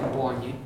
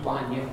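No difference in how they are said.

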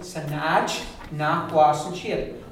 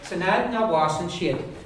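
First: The T and N sounds are said separately. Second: The T and N sounds run together. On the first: "So if I was to split them" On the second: "But they're coming together and sounding, you say"

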